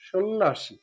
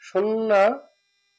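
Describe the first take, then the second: First: সন্ন্যাসী said slowly with শ sound; correct pronunciation. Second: সন্ন্যাসী drawn out slowly with plain স, a bit higher; wrong pronunciation demo. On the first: Teacher giving the corrected সন্ন্যাসী to students. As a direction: give the correct form slowly. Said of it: "ঠিক আছে, সন্ন্যাসী". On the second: Teacher showing the wrong সন্ন্যাসী before correcting. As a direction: show the wrong way, slow and rising. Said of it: "সি না, সন্ন্যাসী". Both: Shown as a demonstration.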